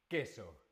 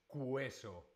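First: No 'w' sound follows the k sound. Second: A 'w' sound follows the k sound. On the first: The speaker calls it right. "La letra U no se pronuncia" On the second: The speaker calls it wrong. "No decimos queso, no"

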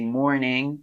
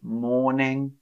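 First: The R sound is pronounced. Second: The R sound is silent. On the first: The speaker calls it wrong. "I don't say mourning" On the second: The speaker calls it right. "I don't say the R"

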